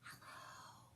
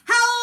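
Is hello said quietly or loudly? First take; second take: quietly; loudly. First: It is said very quietly. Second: It is said very loudly.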